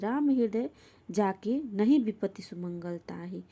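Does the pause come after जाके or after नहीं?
after जाके. The pause comes after the word जाके. Those with Ram in their heart meet no misfortune. "उत्तरार्ध का अर्थ है जिनके हृदय में राम है उन्हें किसी प्रकार की विपत्ति नहीं आती है"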